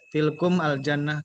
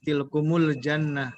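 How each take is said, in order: First: Tilkum and al jannah are said as separate words. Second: The words are joined with a u sound: tilkumul.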